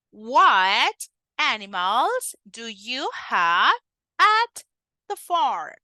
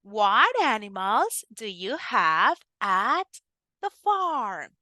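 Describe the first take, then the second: First: Slow, word by word; slow halting drill. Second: Smoother and more connected; more fluent. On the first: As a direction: spell it out slowly for the child. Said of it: "with more fluency". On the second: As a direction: run the words together more fluently. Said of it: "Come on, with more fluency". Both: Shown as a demonstration.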